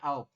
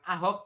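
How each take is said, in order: First: The middle h sound is dropped entirely. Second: The middle h sound is clearly pronounced. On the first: The speaker calls it right. "tapi aop" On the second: The speaker calls it wrong. "bukan ahop"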